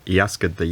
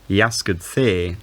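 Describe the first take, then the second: First: The pronoun is weak and unstressed. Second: The pronoun is full and stressed. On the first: The pronoun carries no special focus. "you'd use the weak form if the pronoun wasn't being emphasized" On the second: This person, and not someone else, was asked. "you'd use the strong form if the pronoun was being highlighted"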